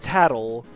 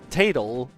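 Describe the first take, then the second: First: The first vowel is a short A. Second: The first vowel is a long A. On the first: The speaker calls it right. "her name is Tattle, because their names are Tattle and Tail" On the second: The speaker calls it wrong. "I thought you pronounced with a long A"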